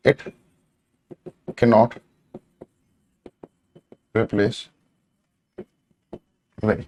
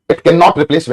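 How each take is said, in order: First: One word at a time, long pauses between; soft, slow, word-by-word writing pace; slow dictation. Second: Said in the usual way. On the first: Real, not acted. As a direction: spell out the sentence slowly as if writing it. Dictating while writing on board.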